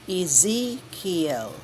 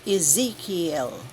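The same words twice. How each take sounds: First: Very slow Ezekiel, ee-ZEE-kee-el with a clear final el. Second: Slow, careful Ezekiel, ee-ZEE-kee-el. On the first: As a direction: draw Ezekiel out syllable by syllable. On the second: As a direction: say Ezekiel slowly and clearly, every syllable. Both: Shown as a demonstration. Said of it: "please take note".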